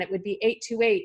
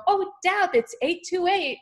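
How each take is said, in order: First: Said in the usual way. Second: Higher, thrilled mentor pointing out eight two eight; excited mentor. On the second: Retold or imitated. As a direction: play the delighted mentor spotting the numbers. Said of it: "and she would go".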